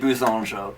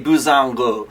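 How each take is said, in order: First: The G in the name is soft. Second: The G in the name is hard. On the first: The speaker calls it wrong. "always say Buzonjo" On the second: The speaker calls it right. "it actually should be a hard G"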